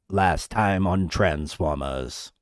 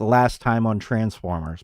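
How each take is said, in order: First: It is said in the Transformers narrator's voice. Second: It is said in a plain, ordinary voice.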